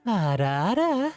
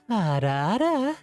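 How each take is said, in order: First: It is said in a femboy voice. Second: It is said in a femboy voice.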